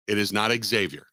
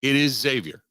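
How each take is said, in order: First: "Xavier" said with an added ek-S, ek-ZAY-vee-er; mock the wrong "Xavier" with a KS start; "Xavier" as ig-ZAY-vier, stress on not; mispronunciation. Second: "Xavier" said with a plain Z sound, ZAY-vee-er; "Xavier" as ZAY-vier, not ex-ZAY-vier; correct pronunciation. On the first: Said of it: "I have a pet peeve". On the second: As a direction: start "Xavier" with a clean Z, no K sound. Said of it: "I know the school very well". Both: Shown as a demonstration.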